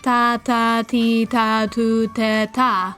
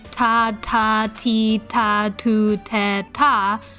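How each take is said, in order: First: The T sounds are soft with little air. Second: The T sounds have strong puffs of air. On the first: The speaker calls it right. "try saying something more like" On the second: The speaker calls it wrong. "you say ta"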